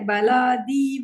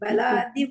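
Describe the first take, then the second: First: The vowel in the 'di' syllable is long. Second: The vowel in the 'di' syllable is short. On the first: The speaker calls it wrong. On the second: The speaker calls it right.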